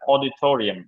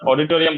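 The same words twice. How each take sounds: First: It is said English-style with a clear stressed syllable. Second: It is said flatly with a Bengali accent. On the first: The speaker calls it right. "English শোনাবে কিভাবে? ... Stress দিতে হবে" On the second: The speaker calls it wrong. "But এটা বাংলা শোনায়"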